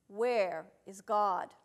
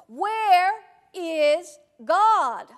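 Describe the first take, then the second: First: It is said sternly at moderate loudness. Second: It is said with the voice raised most.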